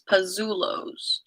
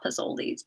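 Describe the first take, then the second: First: The name is said as Pazzulos. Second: The name is said as Pizzolis. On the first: The speaker calls it right. "It's Pazzulos" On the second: The speaker calls it wrong. "not Pizzolis"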